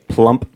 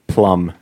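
First: Plump with the P sounded at the end; final P. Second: Plum ending on a hummed M; no final P. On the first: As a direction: close plump on a popped P. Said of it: "it's the P at the end". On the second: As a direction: say plum with no P after the M. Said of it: "And then if you say plump". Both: Shown as a demonstration.

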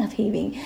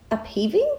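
First: "upheaving." said with a falling tune, softer and settled; settled statement. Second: "upheaving?" asked with a rising, doubtful tune; unsure question. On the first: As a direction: land firmly on "upheaving." as the chosen word. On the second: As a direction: test the word "upheaving?" as if unsure it exists. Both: Real, not acted. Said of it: "I like up-leveling, upheaving".

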